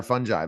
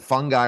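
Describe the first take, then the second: First: "fungi" said as FUN-jai; soft G pronunciation. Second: "fungi" said as FUN-guy; hard G pronunciation. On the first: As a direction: say "fungi" with a J in the middle, rhyming with "eye". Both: Shown as a demonstration. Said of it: "I wanna make sure".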